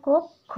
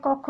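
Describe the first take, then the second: First: কক্ষ with the first vowel closed to ও, kokkho; কক্ষ said kok-kho, অ turned to ও; correct pronunciation. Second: কক্ষ with an open first vowel, like kɔkkho; কক্ষ read with the plain অ sound, kɔk-kho; wrong pronunciation. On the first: Teacher gives students the right reading, কক্ষ as kokkho. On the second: Teacher shows students the wrong reading of কক্ষ with open অ. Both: Shown as a demonstration. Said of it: "আমরা কক্ষ না".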